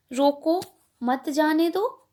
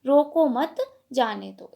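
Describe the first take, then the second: First: रोको set apart, then मत जाने दो as one phrase; pause after रोको. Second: रोको मत run together, then a break before जाने दो; pause after मत. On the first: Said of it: "उसके दो अर्थ प्रकट होते हैं". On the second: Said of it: "और दूसरा". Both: Shown as a demonstration.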